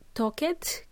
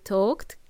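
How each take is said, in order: First: The ending is an extra 'ed' syllable. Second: The ending is a short 't' sound. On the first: The speaker calls it wrong. "So we don't say it" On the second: The speaker calls it right. "We say"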